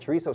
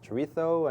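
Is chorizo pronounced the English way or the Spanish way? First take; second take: English; Spanish. First: It is pronounced the usual English way. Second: It is pronounced the way people in Spain say it.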